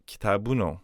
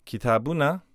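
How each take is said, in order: First: "Kitabuno" ending in "oh"; final o sound. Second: "Kitabuna" ending in a short "uh"; little final vowel. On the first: Teacher showing the inflected form, o-ended "Kitabuno". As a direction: cover the last vowel of "Kitabuno" with an o. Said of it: "we just cover it over". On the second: Teacher giving the form before inflection, "Kitabuna" with small end vowel. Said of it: "a little vowel on the end". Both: Shown as a demonstration.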